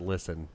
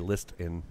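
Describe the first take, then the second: First: The T sound is silent. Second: The T sound is clearly pronounced. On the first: The speaker calls it right. "Because it's listen" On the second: The speaker calls it wrong. "You don't say list in"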